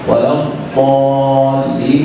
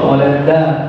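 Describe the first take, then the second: First: The word starts with an emphatic, heavy d sound. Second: The word starts with a plain, light d sound. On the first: The speaker calls it right. "هذه ضاد" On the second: The speaker calls it wrong. "يقرأها دالا، هذا لحن في القرآن"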